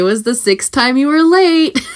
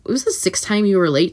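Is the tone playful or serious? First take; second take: playful; serious. First: The tone is light and playful. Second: The tone is stern and serious. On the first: The boundary is raised gently, as a joke. The speaker calls it right. "you can do that in a fun way" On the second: The boundary is raised as a firm complaint. The speaker calls it wrong. "that's a, a lot more um, serious tone"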